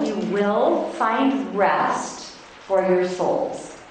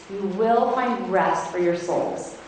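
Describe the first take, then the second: First: Slow, with "will" leaned on hard; stress on will. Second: Said in the usual way. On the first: Shown as a demonstration. Reading scripture to women's group, slowly stressing "will". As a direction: dwell on "will" and draw the line out. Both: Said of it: "underline the word will".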